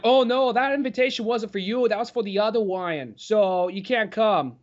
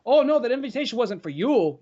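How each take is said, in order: First: Mock Fudd-like speech. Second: Higher mock kid voice, R's lingering; imitating Jeremy's speech. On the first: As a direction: say Wyan for Ryan, like Elmer Fudd. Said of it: "say the guy's name in preparation". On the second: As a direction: play the snooty kid who drags his R's, a bit higher. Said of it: "a lingering R when he would talk".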